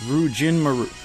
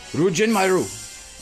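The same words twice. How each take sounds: First: It is said calmly, without intensity. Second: It is said loudly with intensity.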